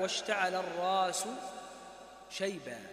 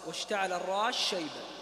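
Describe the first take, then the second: First: The s is pronounced clearly before the sh. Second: The s is merged into the following sh. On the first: "فيقرأ بالإظهار كما قرأنا" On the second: "ويقرأ بالإدغام"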